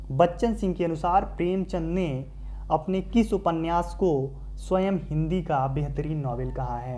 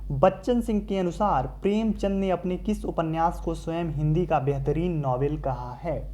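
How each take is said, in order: The two takes are said the same way.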